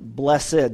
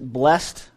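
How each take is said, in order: First: The word is said in the older way. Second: The word is said in the newer way. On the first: "the old way to say it" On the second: "Some people pronounce it blessed"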